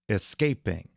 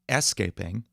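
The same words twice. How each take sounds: First: The stress is on the middle syllable. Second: The stress is off the middle syllable. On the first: The speaker calls it right. "x slash x, the stress on the middle syllable" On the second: The speaker calls it wrong. "You wouldn't say escaping"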